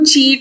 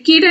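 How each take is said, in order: First: The word begins with a ch sound. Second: The word begins with a k sound. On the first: The speaker calls it right. "సిహెచ్ అని వచ్చినప్పుడు చీట్ అని use చేయాలా" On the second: The speaker calls it wrong. "కీట్ కీట్ అని మనం use చేయలేం"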